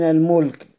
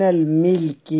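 First: الملك said al-mulk, meem with u; الملك pronounced al-mulk, short u after the m; damma on the meem. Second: الملك said al-milk, meem with i; الملك pronounced al-milk, short i after the m; kasra on the meem. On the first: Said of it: "والثانية بضم الميم". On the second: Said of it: "الأولى بكسر الميم". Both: Shown as a demonstration.

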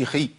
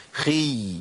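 First: خي clipped short with no held y; brief, chopped خي; cut-off ya. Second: خي sustained on a long y; held ya. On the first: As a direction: stop the sound of خي abruptly. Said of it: "ما أقولش". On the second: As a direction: stretch out the end of خي. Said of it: "لازم أقول". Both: Shown as a demonstration.

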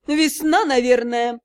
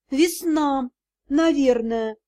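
First: Drawn-out, knowing rising tone; meaningful drawl. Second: Said in the usual way. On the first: A narrator's reading. Mother-in-law hinting to the secretary with a drawn-out knowing tone. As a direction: let the hint hang in the air. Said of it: "многозначительно протянул свекромонстр". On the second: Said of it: "многозначительно протянул".

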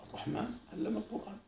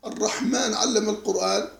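First: Almost murmured, letting الرحمن and علم linger softly; hushed contemplative recitation. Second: Said in the usual way. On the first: Shown as a demonstration. Teacher showing students how the verse touches the soul, hushed. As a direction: say it softly, savouring each word. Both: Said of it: "لما أنت تقول".

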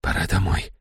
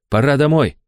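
First: Soft, resigned, barely voiced; whisper. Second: Higher, coaxing inner voice; urging inner voice. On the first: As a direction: whisper it, close to tears. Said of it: "прошептал я". (шёпот сквозь слёзы) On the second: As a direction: press him to give up. (уговаривающий внутренний голос) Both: A narrator's reading.

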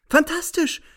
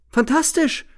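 First: Much higher, even more jubilant cry; exulting. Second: Much higher, rising cry of joy; exulting. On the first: Narrator exulting at her word, even more jubilant. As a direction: shout it again with glee. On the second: Narrator exulting at her cutting word, jubilant. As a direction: crow it with delight. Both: A narrator's reading. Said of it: "jauchze ich".

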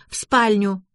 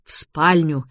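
First: Put-on higher girlish correction; hint of a girl insisting; lightly voiced insistent girl. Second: Said in the usual way. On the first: A narrator's reading. Girl insists, narrator echoes her. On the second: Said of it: "эхом отозвался я".

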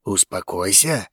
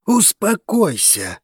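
First: Low, subdued menacing growl. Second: High, slow, insistent urging; dragon calming friend. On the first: Zein to the friend blocking him, low growl. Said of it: "зарычал Зейн, желая убить его". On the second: Dragos to his crazed friend, high slow urging. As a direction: draw it out high to calm him. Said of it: "произнёс дракон обезумевшему другу". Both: A narrator's reading.

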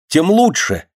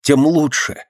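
First: High, glad burst; a happy exclaim, pitched up high; joyful exclamation. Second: Glad repeat, a little higher; pleased, pitched up echo; joyful exclamation. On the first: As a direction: cry it out with delight. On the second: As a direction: echo the joy once more. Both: A narrator's reading. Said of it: "воскликнул Рубцов радостно".

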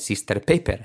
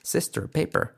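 First: "sister, paper" with tapped Spanish "er" endings; "sister, paper" with clear Spanish E and R. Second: "Sister, paper" higher, with curled R endings; corrected "Sister, paper" in English R; American R. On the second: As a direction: curl the final R of "Sister, paper". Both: Shown as a demonstration. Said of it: "no me repitáis".

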